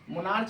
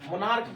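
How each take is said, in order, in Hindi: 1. शब्द 'ch' ध्वनि से खत्म होता है। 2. शब्द 'k' ध्वनि से खत्म होता है। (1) "मोनार्च नहीं बोलते हैं" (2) "मोनार्क पढ़ते हैं"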